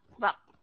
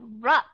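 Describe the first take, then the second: First: The vowel is a reduced schwa sound. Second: The vowel is a full short u sound. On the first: "nó là schwa sound" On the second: "là short u sound"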